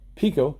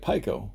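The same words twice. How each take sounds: First: Pico is said with its official pronunciation. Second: Pico is said the way its spelling suggests. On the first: This is the proper name of the product. The speaker calls it right. "that doesn't look like Pico" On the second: This is how the name seems to read. The speaker calls it wrong. "it looks like Pico"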